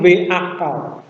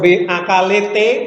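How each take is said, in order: First: The word ends on consonants with no added vowel. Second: Extra vowels are added after both final consonants. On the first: The speaker calls it right. "tapi V akal" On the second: The speaker calls it wrong. "atau V akalete"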